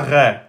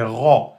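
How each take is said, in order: First: The r sound is thin and light. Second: The r sound is heavy and emphatic. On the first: The speaker calls it wrong. "C'est pas ré" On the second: The speaker calls it right. "Ici on a le ra emphatique"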